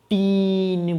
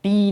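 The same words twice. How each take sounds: First: "टीन" stretched slowly with a clear n at the end; slow, careful "टीन" as the right answer; correct form. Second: "टी" said short, as the wrong ending; the mistake said crisply; wrong form. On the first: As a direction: draw out "टीन" very slowly and land the n. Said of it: "टीन बोलना है". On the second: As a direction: clip it to a bare "टी" with no n. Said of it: "टी नहीं बोलना है". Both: Shown as a demonstration.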